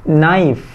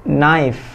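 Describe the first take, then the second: The two takes are said the same way.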